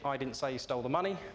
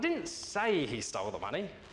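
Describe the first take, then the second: First: No word in the sentence is stressed. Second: The word 'say' is stressed. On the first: It means exactly what the words say. "if you say that with a very single tone, it's very much as it is on the tin" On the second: The speaker only hinted at it. "I merely suggested it"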